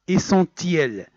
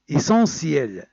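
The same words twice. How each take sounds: First: The 'ti' is said with a T sound. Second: The 'ti' is said with an S sound. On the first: The speaker calls it wrong. "C'est pas essentiel" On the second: The speaker calls it right. "on écrit T et on le prononce C"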